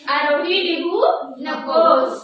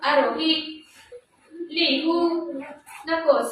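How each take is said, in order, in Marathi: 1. वाक्य सलग चालते, फक्त शेवटी थांबते. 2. वाक्याच्या मध्ये एक थांबा आहे. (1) "आणि मग थांबले" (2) "मध्येच थांबले"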